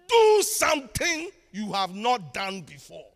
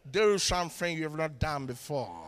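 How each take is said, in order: First: It is spoken in a Ghanaian accent. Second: It is spoken in an American accent. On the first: "Let me say it in my Ghanaian accent" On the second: "He said he wants an American"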